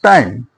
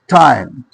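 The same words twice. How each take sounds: First: The t is released without a puff of air. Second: The t is released with a puff of air. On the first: The speaker calls it wrong. "not time" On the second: The speaker calls it right. "it is aspirated. So we will say time"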